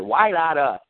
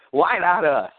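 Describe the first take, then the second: First: Said in the usual way. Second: Booming radio announcer hype; radio guy voice. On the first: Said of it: "Hey, everybody, let's say it". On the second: Shown as a demonstration. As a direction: sell it like a radio host. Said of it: "my radio guy voice".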